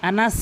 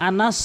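First: আনাস with an unrounded, open a; wrong anas. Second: আনাস with a dark, rounded last vowel; rounded anas. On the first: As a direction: leave the lips unrounded on আনাস. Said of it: "আনাস কিন্তু না". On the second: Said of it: "সতের উচ্চারণ". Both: Shown as a demonstration.

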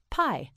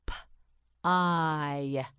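First: Said in the usual way. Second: "P-I" as a separate puff of p, then a long eye; sounded-out word. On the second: Shown as a demonstration. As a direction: sound out "P-I" in two slow pieces. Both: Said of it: "You try it, say pie".

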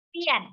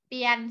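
First: "เปี้ยน" falling in Mandarin fourth tone. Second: Said in the usual way. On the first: Shown as a demonstration. Teacher models it for students, "เปี้ยน" with falling fourth tone. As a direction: start high and drop through "เปี้ยน". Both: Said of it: "เสียงสี่ เป็น".

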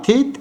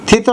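First: "থিত" as thit, one syllable; closed final consonant. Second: "থিত" as thito, two syllables; wrong final vowel. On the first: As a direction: stop "থিত" on the t. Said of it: "এখানে হসন্ত পড়বে". (হসন্ত দিয়ে "থিত") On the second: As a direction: add an o after the t of "থিত". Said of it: "থিত না থিত". (হসন্ত ছাড়া "থিত") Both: Shown as a demonstration.

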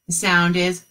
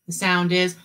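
No difference in how they are said.

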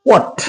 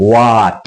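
First: What high and short, rhyming with hot; correct pronunciation. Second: What lower, with a long drawn-out aa; mispronunciation. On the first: Teacher gives the right what, short hot vowel. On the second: Teacher shows the mistake to avoid, what with long aa. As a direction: say what as a long, low "waat". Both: Shown as a demonstration.

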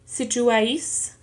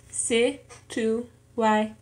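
First: Said in the usual way. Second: Slow "situáis" in four separate pieces; syllable by syllable. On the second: Shown as a demonstration. Learner showing four syllables in an exercise, "situáis" syllable by syllable. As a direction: break "situáis" up as si, tu, a, is. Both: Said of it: "en cuatro sílabas".

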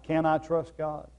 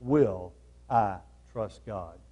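First: Said in the usual way. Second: "Will" weighted, lower and slow; stress on Will. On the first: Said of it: "So the question is today, not". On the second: Shown as a demonstration. Preacher to congregation, stressing the real question. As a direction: lean hard on "Will I trust God?", slowly.

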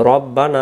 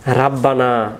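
First: রব্বানা with a short rounded ro, not ra; correct Rabbana. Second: রাব্বানা with a long open ra, the common mistake; wrong Rabbana. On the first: Teacher giving viewers the correct short ro. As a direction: say রব্বানা, short ro then doubled b. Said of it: "র অক্ষরটা রা রূপান্তরিত হবে". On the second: Teacher showing viewers the common mistake, long ra. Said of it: "এ রাব্বানা বললে র অক্ষরটা বল". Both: Shown as a demonstration.

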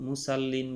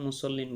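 First: মুসাল্লিন with a long open "sa", the mistaken way; wrong pronunciation. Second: মুসল্লিন with a short "so" and doubled "ll"; clipped "so", held double ল in মুসল্লিন; correct pronunciation. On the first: Teacher shows students the wrong way: wrong stretched মুসাল্লিন. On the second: Teacher gives students the correct form: short-vowel মুসল্লিন. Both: Shown as a demonstration. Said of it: "আসলে মুসাল্লিন বলা যাবে না".

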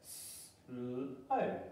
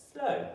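First: Soft stretched "slow", slowly sliding up; drawn-out slow. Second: Short high "slow", falling quickly; bright slow. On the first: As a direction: stretch "slow" out softly and let it rise. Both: Shown as a demonstration. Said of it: "let's read it together".

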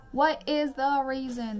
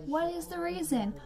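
First: Slow, loud, word-by-word "What is the reason?"; emphatic repeated demand. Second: Higher-pitched exasperated question; exasperated demand. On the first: Ranting at nosy parents, slow loud "What is the reason?". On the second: Ranting about parents walking past on Zoom, exasperated demand. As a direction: demand an answer in disbelief. Mock outrage at nosy parents. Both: Acted.

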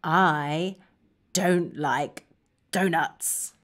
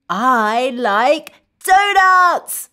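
First: Low, quiet, halting; subdued, word-by-word refusal; glum dislike. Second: Slow, emphatic happy declaration; delighted, word by word for kids; enthusiastic liking. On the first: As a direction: drop down soft and disappointed. Modelling dislike of donuts. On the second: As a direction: draw out each word with relish. Modelling liking donuts for children. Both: Shown as a demonstration.

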